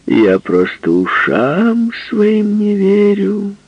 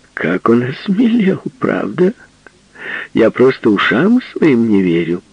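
First: High, slow, drawn-out teasing; squinting tease. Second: High, loud teasing; mock his new boldness; teasing woman. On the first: Acted. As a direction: stretch it out, winking. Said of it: "повторила она, прищурив один глаз".

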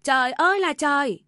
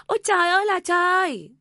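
First: Loud, high cry of outrage; wailing yell. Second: Full-blown wailing scream. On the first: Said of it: "Bà Tâm gào lên". (mẹ chồng gào lên than trời) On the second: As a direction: scream to heaven in outrage. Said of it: "Bà Tâm lại gào to hơn". (gào thật to, kéo dài than trời) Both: A narrator's reading.

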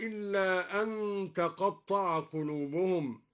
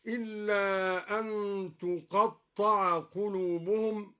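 First: Said in the usual way. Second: تقطع read tuqatta'a, passive, with the ta voiced as tu; damma on ta. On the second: Shown as a demonstration. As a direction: open تقطع with tu and stretch it slowly. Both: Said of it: "قرأ الدوري بضم التاء هكذا".

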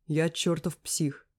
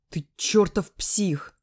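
First: Slow, goofy agreeing echo; dumb hasty agreement. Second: Furious slow shout, higher and louder; yelling. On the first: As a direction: agree fast with a silly grin. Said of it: "Соглашается поспешно и глупо улыбается". (поспешно и глупо соглашаясь) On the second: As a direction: yell it right in his face. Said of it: "ору ему в лицо". (ярость, крик в лицо) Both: A narrator's reading.

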